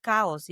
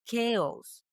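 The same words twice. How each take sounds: First: "chaos" said as KAH-os; "chaos" sounding close to "cows"; mispronounced chaos. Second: "chaos" said English-style as KAY-os; corrected chaos. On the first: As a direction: give "chaos" the Spanish "ah" vowel. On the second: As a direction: give "chaos" a long "ay" first vowel. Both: Retold or imitated. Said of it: "it's not chaos".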